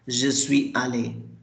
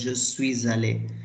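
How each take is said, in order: First: Suis and allé are said without linking. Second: The s of suis links into allé. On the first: The speaker calls it wrong. "if a layman will pronounce it as" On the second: The speaker calls it right. "there is a license, that's why I'm pronouncing it as"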